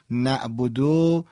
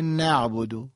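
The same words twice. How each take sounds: First: نعبدو drawn out slowly without the ayn; ayn dropped. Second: نعبدو with a distinct throaty ayn; ayn pronounced. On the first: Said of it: "حرف عین داریم ما". (نعبدو کشیده و بدون عین) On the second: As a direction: sound the Arabic ayn in نعبدو. (نعبدو با عین عربی) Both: Shown as a demonstration.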